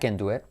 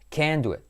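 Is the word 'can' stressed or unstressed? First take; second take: unstressed; stressed. First: The word 'can' is unstressed. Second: The word 'can' is strongly stressed. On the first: The speaker is able to do it. "lo puedo hacer" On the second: The speaker is not able to do it. "No lo puedo hacer ... Simplemente enfatizar toda la palabra"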